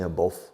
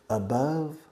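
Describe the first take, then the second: First: The last vowel does not rhyme with love. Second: The last vowel rhymes with love. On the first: The speaker calls it wrong. "Spanish people always make mistakes in your pronunciation of above. You say above" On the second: The speaker calls it right. "Above rhymes, rima with love"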